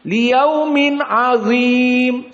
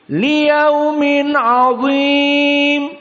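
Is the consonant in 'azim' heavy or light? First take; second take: light; heavy. First: The consonant in the last word is light. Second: The consonant in the last word is heavy. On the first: The speaker calls it wrong. "Sama dha, namun tidak ada tafkhim" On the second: The speaker calls it right. "membaca dengan tafkhim"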